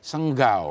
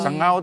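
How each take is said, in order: First: The ng is followed by a hard g. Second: The ng is said without a hard g. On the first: "jadi senggau" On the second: "Sengau tuh jadi"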